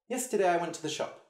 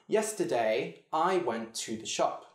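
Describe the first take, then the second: First: It is said at a fast pace. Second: It is said at a slow pace.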